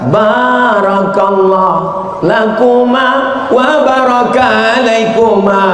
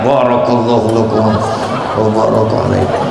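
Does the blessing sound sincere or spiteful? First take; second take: sincere; spiteful. First: The blessing is said in a warm, sincere tone. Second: The blessing is said grudgingly through clenched teeth. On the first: The speaker is truly happy for the couple. The speaker calls it right. "doakan dia di atas pentas" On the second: The speaker is envious of the couple. The speaker calls it wrong. "kalau hatinya hasad, dengki, busuk hati, doanya sama, bunyinya lain"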